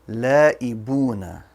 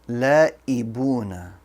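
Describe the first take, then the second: The two takes are said the same way.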